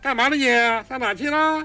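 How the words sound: The voice resonates high in the head.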